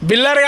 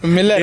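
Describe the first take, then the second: First: The name starts with a b sound. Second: The name starts with an m sound. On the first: The speaker calls it wrong. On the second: The speaker calls it right.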